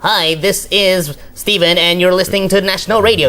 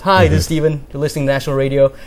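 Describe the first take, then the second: First: It is said in an exaggerated put-on voice. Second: It is said in a natural, projected voice. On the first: This delivery does not work on national radio. The speaker calls it wrong. "you can't go like like" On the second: This delivery sounds professional and polished. The speaker calls it right. "turn it back to your normal voice"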